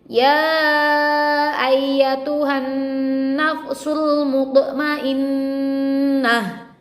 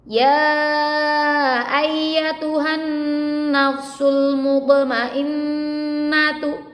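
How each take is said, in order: First: The last word ends with a soft h sound. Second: The last word ends with a full t sound. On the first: The reading stops at this word. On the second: The reading continues past this word.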